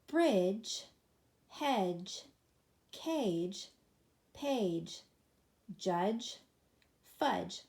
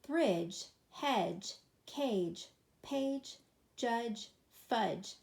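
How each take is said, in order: First: The words are read a little faster. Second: The words are read at the fastest pace. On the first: "a little faster this time"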